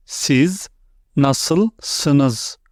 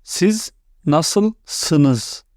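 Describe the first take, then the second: First: "Siz" then "nasılsınız?" said apart, word by word; slow split model pronunciation. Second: Said in the usual way. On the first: Shown as a demonstration. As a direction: break "Siz nasılsınız?" into two careful words. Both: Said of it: "the second way is".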